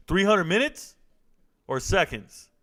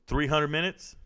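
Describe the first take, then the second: First: Can't believe that timeout length; incredulous. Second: Said in the usual way. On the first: Real, not acted. Streamer checks a viewer's timeout, incredulous.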